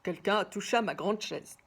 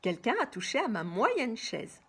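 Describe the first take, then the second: First: It is said in a big, deep voice. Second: It is said in a medium voice.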